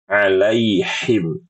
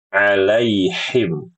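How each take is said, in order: No difference in how they are said.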